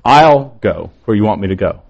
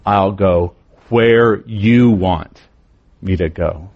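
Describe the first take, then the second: First: I'LL hit hard and set apart, the rest quicker and lighter; stress on I'LL. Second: Slow and lower, YOU drawn out and weighted, pause before me to go; stress on YOU. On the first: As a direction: lean on the word I'll. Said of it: "each part of this phrase puts a different emphasis". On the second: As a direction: lean slowly on you want. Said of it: "that's where the emphasis becomes". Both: Shown as a demonstration.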